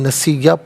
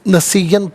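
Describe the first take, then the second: First: The word ends with a long a vowel. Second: The word ends with an n sound. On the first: The reader stops at this word. "वफ़ की सूरत में नसीया पढ़ेंगे" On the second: The reading continues without stopping. "नस नसीयन पढ़ेंगे"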